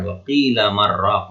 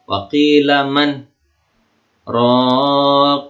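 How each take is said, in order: First: The words run together with no pause. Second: A brief stop comes after man, without breath. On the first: The speaker calls it wrong. "bukan wa qila marraq, enggak" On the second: The speaker calls it right. "tidak ngambil apa?"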